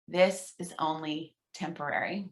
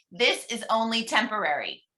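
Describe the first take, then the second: First: Soft, lower hushed echo; softer repeat. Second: Said in the usual way. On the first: Shown as a demonstration. Leader repeats the mantra softly for the group, hushed. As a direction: say it back quietly. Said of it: "I'll whisper it kind of in the second one". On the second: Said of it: "in my full volume".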